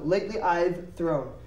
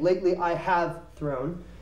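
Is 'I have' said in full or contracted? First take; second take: contracted; full. First: 'I have' is contracted to 'I've'. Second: 'I have' is said as two full words. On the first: The speaker calls it right. "we're going to use an abbreviation" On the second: The speaker calls it wrong. "we will not be saying"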